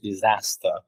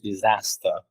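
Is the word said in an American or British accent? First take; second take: American; American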